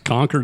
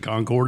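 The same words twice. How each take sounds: First: It is said the Northeastern way. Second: It is said the North Carolina way.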